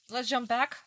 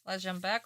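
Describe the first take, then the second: First: Let's jump back called out high and loud, jump lifted up; rally the viewers with a bright raised call. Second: Said in the usual way. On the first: Shown as a demonstration.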